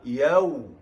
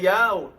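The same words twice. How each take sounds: First: The syllable is drawn out slightly, lips rounded. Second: The syllable is said quickly and carelessly. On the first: The speaker calls it right. "yau agak bertempo" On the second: The speaker calls it wrong. "bukan yau"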